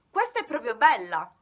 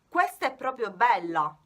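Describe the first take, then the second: First: It is said in a warm, admiring tone. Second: It is said in an annoyed, sarcastic tone. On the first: The thing is truly beautiful. "Con questo tono della voce voglio eh, far capire al mio interlocutore che questa mela... è proprio bella" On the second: The thing is annoying or really bad. "qualcosa che ci dà fastidio e usiamo un tono di voce diverso"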